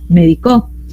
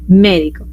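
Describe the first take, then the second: First: The stress is on the last syllable. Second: The stress is on the first syllable. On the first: "saltando hasta la última en aguda la volvió" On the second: "a la antepenúltima... por esdrújula cambió"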